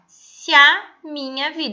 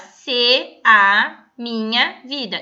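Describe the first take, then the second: First: The two vowels merge into one syllable. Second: The two vowels are said as separate syllables. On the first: The speaker calls it right. "Eu falo se a" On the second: The speaker calls it wrong. "eu não vou falar"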